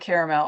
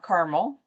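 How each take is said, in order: First: The word is said with three syllables. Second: The word is said with two syllables. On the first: "It was really hard for me to say caramel" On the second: "and not Carmel. I do live next to the town of Carmel"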